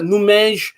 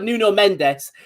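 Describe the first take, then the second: First: The name is said with a thick Portuguese accent. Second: The name is said with an English accent.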